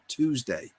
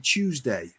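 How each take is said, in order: First: The first vowel is a plain 'oo' sound. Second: The first vowel sounds like the word 'you'. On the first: This is not how the speaker says it. "not Tuesday" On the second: This is how the speaker normally says it. "I say Tuesday, So you is you to me"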